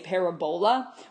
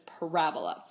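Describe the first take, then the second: First: The third syllable is stressed, like bowl. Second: The stress is on the second syllable. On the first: The speaker calls it wrong. "sounding like bowl" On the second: The speaker calls it right. "the accent is on the second syllable"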